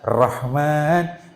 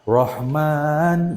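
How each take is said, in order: First: The R sounds thin and light. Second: The R sounds thick and heavy. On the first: The speaker calls it wrong. "tidak boleh dibaca" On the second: The speaker calls it right. "harus dibaca tafhim"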